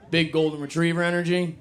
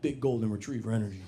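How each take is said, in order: First: Higher, louder, relishing the phrase "Big golden retriever energy"; bright, amused echo of "Big golden retriever energy"; delighted repeat. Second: Trying out the phrase. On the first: Real, not acted. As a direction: savour "Big golden retriever energy" like a new favourite saying. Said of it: "You heard that?". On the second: Shown as a demonstration. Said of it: "I'm gonna start saying that".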